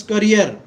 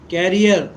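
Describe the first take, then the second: First: Career with the weight on its second syllable, ca-REER; stress on second syllable. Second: Carrier with the weight on its first syllable, CA-rrier; stress on first syllable. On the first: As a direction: say career leaning on the final REER. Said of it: "accent is on the accent second syllable". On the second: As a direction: say carrier leaning on the opening CAR. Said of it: "accent is on the first syllable". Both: Shown as a demonstration.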